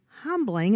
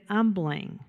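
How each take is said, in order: First: The word starts with a clear H sound. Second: The word starts without an H sound. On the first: The speaker calls it right. "The word is humbling. It starts with an H" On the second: The speaker calls it wrong. "You said humbling"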